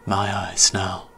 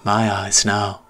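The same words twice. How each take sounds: First: Slow, hushed echo of the attacker; remembered menace. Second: Put-on menacing ghost boy. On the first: Retold or imitated. Narrator recalling his attacker's words, slow hushed echo. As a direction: recall it like a haunting memory. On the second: Ghost boy claiming the narrator's eyes, slow sinister. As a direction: savor each word with menace.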